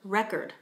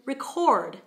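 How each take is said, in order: First: The stress is on the first syllable. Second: The stress is on the second syllable. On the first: It is a noun. "That word has a stress on the first syllable, and it's a noun" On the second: It is a verb. "if we change the accent to the second syllable"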